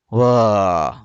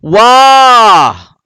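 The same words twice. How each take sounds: First: The word is said on a low pitch. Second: The word is said on a high pitch. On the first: The speaker calls it wrong. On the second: The speaker calls it right. "dia kena tinggi"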